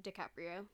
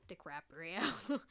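First: Said in the usual way. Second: DiCaprio with an extra R, as Di-CRAP-rio; mangled surname. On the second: Real, not acted. Podcaster playing on a slip of the tongue, mangled DiCaprio. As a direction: draw out DiCaprio slowly and louder, saying "crap" inside.

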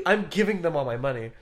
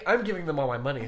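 First: Louder, laughing through the words. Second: Laughing. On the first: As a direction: repeat it, laughing harder. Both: Real, not acted.

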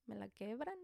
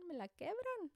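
First: Said in the usual way. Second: Much higher, almost squeaky repeat; exaggerated high whine about a sore hand; mock pained squeal. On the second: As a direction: jump way up in pitch on the repeat, like it really hurts. Hand hurt from spanking kids.

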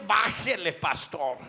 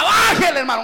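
First: Much softer, lower "Bájele, pastor" as a muffled plea; pleading hush. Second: Higher, louder mock "Bájele" shouted back at him; mock complaint. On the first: Retold or imitated. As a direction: murmur "Bájele" like a listener begging quietly. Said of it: "con eso me están diciendo". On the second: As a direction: throw "Bájele, hermano" out as a loud demand. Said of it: "usted me diga".

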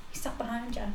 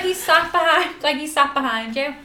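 First: Discreet, hushed. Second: Louder, higher, emphatic warning; loud insistent repeat. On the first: Secretly warning a friend on the bus, hushed. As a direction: slip it out softly. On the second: Repeating the warning to a friend on the bus, loudly. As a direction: push it out louder so it gets through. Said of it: "Your friend is super loud". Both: Retold or imitated.

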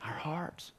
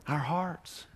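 First: Soft breathy whisper of the answer. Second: Said in the usual way. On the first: Acted. Preacher whispers the answer to the congregation. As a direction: lean in and whisper it like a secret.

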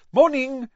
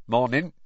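First: High, loud cheery hello; bright greeting. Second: A hint of a dour farmer, flat morning; gruff Muggle. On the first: Mr Weasley greets the Muggle campsite owner brightly. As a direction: greet the stranger brightly, pitched way up. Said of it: "said Mister Weasley brightly". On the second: Campsite owner answers the stranger, a hint of dourness. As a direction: grunt it back, unimpressed. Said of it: "said the Muggle". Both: A narrator's reading.

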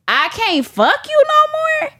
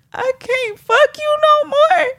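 First: High protest with YOU NO MORE climbing; worked-up, high-pitched outburst; emphatic disbelief. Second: Very high, pleading wail; squeaky heartbroken lament; desperate whine. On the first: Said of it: "when I say it these three different ways". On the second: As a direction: whine it high like you're about to cry. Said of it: "pick up on the different emotions". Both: Shown as a demonstration.

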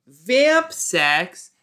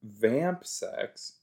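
First: Higher, louder disgusted question. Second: Said in the usual way. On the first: Real, not acted. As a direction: squeal it in disgust. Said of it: "That's gross".

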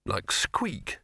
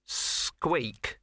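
First: Said in the usual way. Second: Higher, drawn-out icy mouse reply; cold mouse. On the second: Acted. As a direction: stretch the word out coldly as the mouse. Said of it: "said the mouse coldly".

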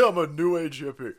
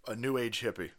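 First: Loud, laughing mock declaration; playful self-mocking announcement; mock proclamation. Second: Said in the usual way. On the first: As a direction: proclaim it louder, hamming it up. Repeats it as hammed-up declaration.

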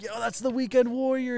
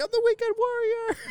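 First: High calling voice, held back; mock yelling. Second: Very high strained mock scream; Weekend Warrior. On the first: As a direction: imitate calling out to someone in a crowd. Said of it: "we start yelling at". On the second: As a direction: squeal it like a raving partygoer, held back. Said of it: "he's screaming".

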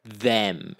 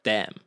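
First: Properly pronounced th in "them"; careful standard th. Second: THEM said as "dem", hard d; casual "them" starting on a d sound; Irish d for th. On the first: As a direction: say "them" correctly, tongue between the teeth for th. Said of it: "pronouncing things very correctly". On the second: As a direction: swap the th of "them" for a d. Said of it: "instead of "them". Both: Shown as a demonstration.

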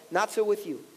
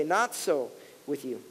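First: Said in the usual way. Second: Hushed and slow. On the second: Acted. Pastor reading Jesus' words to the church, hushed and slow. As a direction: drop low and soft, slowly. Quoting Jesus, verse forty-three.

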